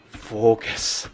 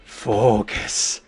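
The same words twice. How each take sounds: The two takes are said the same way.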